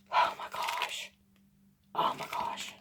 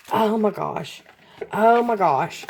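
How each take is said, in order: First: Breathless awed whisper. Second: Voiced, amazed exclamation; excited. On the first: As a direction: whisper it in disbelief. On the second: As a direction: let the wonder out aloud. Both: Real, not acted. Gasping at unboxed gift.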